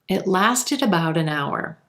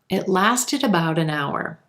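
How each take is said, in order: The two takes are said the same way.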